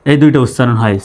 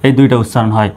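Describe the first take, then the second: No difference in how they are said.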